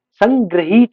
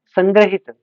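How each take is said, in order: First: संग्रहित stretched slowly as "sang-graheet"; wrong vowel length. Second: संग्रहित with a short "i": "sangra-hit"; corrected short vowel. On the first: Teacher showing students the error, संग्रहित as "sang-graheet". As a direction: draw out the "hee" in संग्रहित. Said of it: "संग्रहित नहीं". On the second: Teacher giving the correction, संग्रहित as "sangra-hit". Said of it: "संग्रहित नहीं, संग्रहित". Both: Shown as a demonstration.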